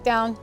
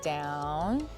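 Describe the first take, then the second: First: It is said sharply and tensely. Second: It is said softly and calmly.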